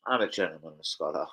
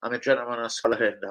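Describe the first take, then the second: First: Said low and soft into the mic to catch the take; softer, lower retake. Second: Said in the usual way. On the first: Shown as a demonstration. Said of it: "I like that". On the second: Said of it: "That's a good one for".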